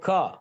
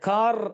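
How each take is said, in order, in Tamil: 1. கடைசி r ஒலி விடப்படுகிறது. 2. கடைசி r ஒலி உச்சரிக்கப்படுகிறது. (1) "வைப்ரேஷன் இல்லாம கா" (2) "கார் அப்படிங்கிற வைப்ரேஷன்"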